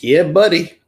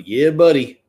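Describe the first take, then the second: First: Alabama "Yeah, buddy." drawn out with a hearty lift; hearty Southern "Yeah, buddy."; Southern Alabama drawl. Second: Southern Alabama drawl. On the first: Host demos an Alabama phrase, hearty Southern accent. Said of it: "it was". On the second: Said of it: "that was Alabama". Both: Shown as a demonstration.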